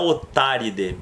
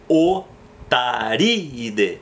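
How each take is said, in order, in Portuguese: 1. Os dois sons i são juntados em uma só sílaba. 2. Os dois sons i são pronunciados como sílabas separadas. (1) "não é otáride, porque os dois i's têm que se separar" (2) "Eu tenho que dar essa separadinha no i"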